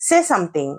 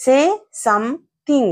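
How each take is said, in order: First: Said in the usual way. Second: "Say... some-thing", split apart with pauses; word-by-word demonstration. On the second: Shown as a demonstration. Teacher breaking the phrase down, word by word. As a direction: separate "Say" from "something", syllable by syllable. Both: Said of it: "వాటిని ఎలా పలకాలి".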